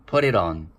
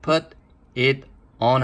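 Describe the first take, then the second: First: The three words are linked into one quick unit. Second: The three words are said separately, unlinked. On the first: The speaker calls it right. "세 개가 붙죠" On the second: The speaker calls it wrong. "put it on 하면 안 되고"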